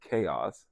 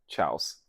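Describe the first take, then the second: First: It is pronounced 'kay-oss' with two syllables. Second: It is pronounced 'chowss' as one syllable. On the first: The speaker calls it right. "didn't know that was how you spelled chaos" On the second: The speaker calls it wrong. "proceeded to pronounce it as"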